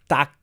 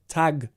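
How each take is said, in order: First: The final consonant is voiceless, like a k. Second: The final consonant is voiced, like a g. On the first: The speaker calls it wrong. "So you were saying tack" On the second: The speaker calls it right. "So you need more of a g"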